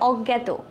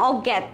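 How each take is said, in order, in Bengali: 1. শব্দটি 'o' স্বরে শেষ হয়। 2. শব্দটি একটি খালি ব্যঞ্জনে শেষ হয়। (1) "এটা হবে অজ্ঞাত" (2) "আমি বলছি না অজ্ঞাত, এরকম কোনো ওয়ার্ড হয় না"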